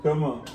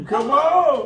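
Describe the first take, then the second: First: Said in the usual way. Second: Coaxing come on with a laugh. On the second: Real, not acted. Calling the baby, laughing.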